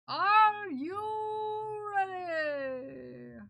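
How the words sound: It is said in a put-on announcer voice.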